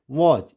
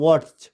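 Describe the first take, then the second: First: "watch" with the T left silent. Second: "watch" with a T sounded before the ch; wrong T in watch. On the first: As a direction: say "watch" smoothly, no T sound. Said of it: "it's watch". ("watch" में टी silent) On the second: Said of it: "it's not watch". ("watch" में टी बोलकर गलत उच्चारण) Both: Shown as a demonstration.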